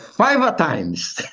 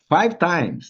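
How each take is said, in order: First: It is said in an Italian accent. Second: It is said in a plain, ordinary accent. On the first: "se fosse italiano" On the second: "a gente fala five times"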